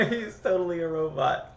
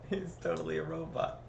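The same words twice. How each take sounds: First: Laughing through the words; giggling while saying it. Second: Softer, calmer repeat; said softly after the laugh; quieter. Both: Real, not acted.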